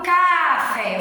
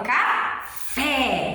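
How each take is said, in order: First: "café" wrongly said as CAAA-fe, loud long first syllable; mis-stressed CÁ-fe for "café". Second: "café" as ca, pause, long FÉÉ; slow ca-FÉ for "café"; stress on last syllable. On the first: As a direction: lean hard and long on the "ca" of "café". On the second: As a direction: land slowly and firmly on the "fé" of "café". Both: Shown as a demonstration. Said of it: "o fé com mais força".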